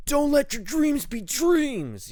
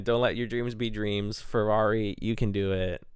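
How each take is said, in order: First: High, loud, slow motivational shout; Shia LaBeouf. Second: A hint of the pep-talk meme, fairly loud; mild mock motivational cheer; lightly voiced Shia LaBeouf. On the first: Retold or imitated. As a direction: yell it like the famous pep-talk meme. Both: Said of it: "Shia LaBeouf?".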